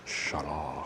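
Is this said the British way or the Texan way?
British. It is said the British way. "I was watching this British guy and he was like"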